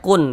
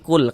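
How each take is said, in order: First: The word ends with an n sound. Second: The word ends with an l sound. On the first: The speaker calls it wrong. "jangan dibaca kun" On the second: The speaker calls it right. "tapi kul karena dia masuk ke huruf lam"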